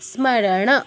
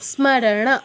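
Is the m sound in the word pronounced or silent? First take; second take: pronounced; pronounced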